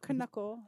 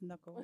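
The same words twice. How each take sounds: First: The k at the start is pronounced. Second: The k at the start is silent. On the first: The speaker calls it wrong. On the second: The speaker calls it right.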